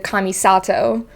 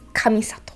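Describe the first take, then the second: First: The second and third syllables are stressed. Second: All syllables are said evenly, without stress. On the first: The speaker calls it wrong. "in English, I always hear Kamisato. always going for that second and third syllable" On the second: The speaker calls it right. "It's Kamisato"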